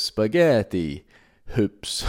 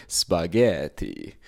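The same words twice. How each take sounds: First: Slow, louder mock Italian punchline; Italian accent. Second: Slow, drawn-out mock Italian spaghetti; Italian accent. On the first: Comedian hitting the punchline to his aunt, in a slow, loud mock Italian accent. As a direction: land spaghetti hoops like a grand Italian chef. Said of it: "putting on an Italian accent for spaghetti hoops". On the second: Comedian winding up his aunt, in a slow, hammy mock Italian accent. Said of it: "putting on an Italian accent for spaghetti".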